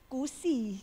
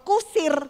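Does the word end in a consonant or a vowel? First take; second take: vowel; consonant. First: The word ends without the final consonant. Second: The word ends with a final r sound. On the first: "gitu. Kira-kira ngomongnya begitu" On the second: "nggak bisa"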